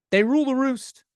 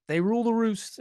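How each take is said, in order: First: Higher and louder, proclaiming it; emphatic declaration. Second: Said in the usual way. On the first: Real, not acted. Owner admitting to the camera that his cats rule, proclaimed loudly. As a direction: announce it like a royal decree.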